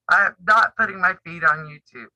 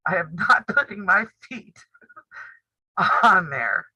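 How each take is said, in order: First: "not" hit hard, then a falling end; a flat refusal that leans on "not"; firm stress on not. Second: Laughing. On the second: Refusing to show feet, laughing. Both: Real, not acted.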